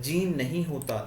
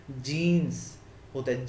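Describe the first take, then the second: First: जीन clipped with no final s; teacher showing the mistake जीन; wrong singular form. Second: जीन्स said slowly, final s held clearly; teacher modelling the right form जीन्स; correct plural form. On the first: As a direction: drop the s on जीन. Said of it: "that is wrong". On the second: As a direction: stretch the s at the end of जीन्स. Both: Shown as a demonstration.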